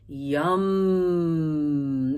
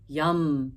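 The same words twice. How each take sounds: First: It is drawn out, relishing the hum. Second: It is short and said in a casual way. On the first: "Enjoying it" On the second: "a little more conversational"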